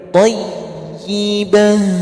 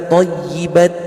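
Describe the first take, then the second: First: The word ends with an h sound. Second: The word ends with a t sound. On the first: The speaker calls it right. "tapi tayyibah" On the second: The speaker calls it wrong. "Jangan dibaca thayyibat ya"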